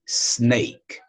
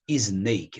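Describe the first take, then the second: First: The word starts directly with the s sound. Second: A short vowel sound comes before the s. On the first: The speaker calls it right. "esse S ele não tem um acompanhamento inicial da letra I" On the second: The speaker calls it wrong. "Não"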